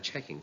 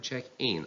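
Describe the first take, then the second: First: The stress is on the first part. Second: The stress is on the second part. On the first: It is used as a noun. "the noun takes stress on the first part" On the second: It is used as a verb. "The verb takes stress on the second part"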